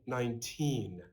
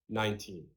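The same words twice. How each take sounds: First: The stress is on the second syllable. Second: The stress is on the first syllable. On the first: The speaker calls it right. "the stress here is on T" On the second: The speaker calls it wrong. "instead of"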